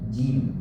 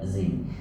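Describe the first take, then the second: First: The syllable starts with a j sound. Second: The syllable starts with a z sound. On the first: The speaker calls it right. "Jim, ja, bukan zim" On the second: The speaker calls it wrong. "bukan zim"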